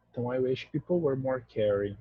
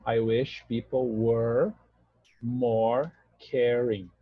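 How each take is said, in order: First: Said in the usual way. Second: Very slow, word by word; slow demo. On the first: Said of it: "É a nossa frase". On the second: Shown as a demonstration. Teacher spelling out the sentence slowly for students, slow and deliberate. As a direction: lay each word out slowly for the class. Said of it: "Ideia de presente, então verbo no passado".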